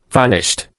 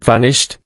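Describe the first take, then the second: First: Vanished said as a flat final fact, falling at the end; falling statement. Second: "Vanished?" echoed with a questioning rise at the end; rising question. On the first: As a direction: let "vanished." drop down like a verdict. Poirot repeated. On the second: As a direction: repeat "Vanished?" as a puzzled question going up. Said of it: "Poirot repeated". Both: Acted.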